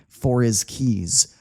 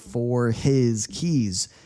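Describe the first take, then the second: First: The h sound in 'his' is dropped. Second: The h sound in 'his' is clearly pronounced. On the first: "I say for his keys" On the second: "I don't say for his keys. Takes too much energy"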